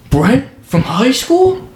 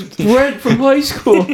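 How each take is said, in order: First: Slow, high-pitched mock recognition; feigned surprise. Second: Slow, high mock recognition that falls at the end; feigned surprise. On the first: Friend faking a chance reunion at the coffee line, feigned surprise. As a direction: draw it out high, ending on an incredulous rise. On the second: Friend skipping the whole line, drawn-out fake surprise. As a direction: stretch out a staged recognition. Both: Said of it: "fake walk up".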